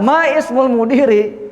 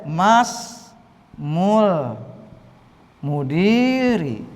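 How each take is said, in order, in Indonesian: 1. Vokal setelah 'ma' dibaca terpisah. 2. Vokal setelah 'ma' dihilangkan dan disambung. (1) "boleh juga ma ismul mudiri" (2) "hamzah wasalnya dilewati, tidak dibaca"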